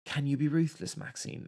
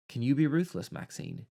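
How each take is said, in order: First: Drawled Southern take on "Can you be ruthless, Maxine?"; Southern accent. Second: Put-on English accent. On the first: Retold or imitated. Reviewer mimicking the Southern actress, fading to a breath. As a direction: redo the line in a thick Southern accent. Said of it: "super Southern accent". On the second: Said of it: "This is an English accent".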